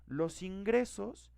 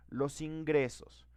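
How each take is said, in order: First: "Los ingresos" slow and higher, peak on "ingresos"; stress on ingresos. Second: "los ingresos" said slowly, weight on "los"; stress on los. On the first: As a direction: lift and hold "ingresos" in "Los ingresos". (acento agudo en "ingresos", despacio) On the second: (acento en "los", despacio) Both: Shown as a demonstration. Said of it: "teacher repeats phrase, stress shift".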